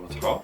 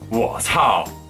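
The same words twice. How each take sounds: First: It sounds doubtful and questioning. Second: It sounds really angry.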